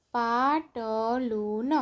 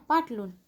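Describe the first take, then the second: First: પાટલું stretched slowly, each syllable held; drawn-out પાટલું, syllables separated. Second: Said in the usual way. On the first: Shown as a demonstration. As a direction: sound out પાટલું slowly for beginner readers. Syllable-by-syllable reading, then whole word.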